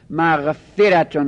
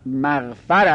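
First: مغفرتون with a short e after the f; kasra on the f. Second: مغفر with an a after the f; fatha on the f. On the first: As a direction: say مغفرتون as "maghferatun", clearly separated syllables. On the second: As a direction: say مغفر as "maghfar", second vowel a. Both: Shown as a demonstration. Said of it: "مغفره به کسر فاست".

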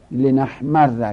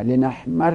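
First: Slow, loud لنحمر, held double r, final "a"; لنحمر as "li-nahmarra"; fatha ending. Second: لنحمر as "li-nahmarri"; kasra ending. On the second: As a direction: say لنحمر with a doubled r and final "i". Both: Shown as a demonstration.

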